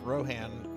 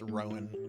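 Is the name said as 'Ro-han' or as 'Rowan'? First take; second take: Ro-han; Rowan. First: The name is said with an audible h, Ro-han. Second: The name is said without an h, Rowan. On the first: The speaker calls it wrong. "I'm pronouncing it like like Tolkien would" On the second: The speaker calls it right. "it's supposed to be pronounced Rowan"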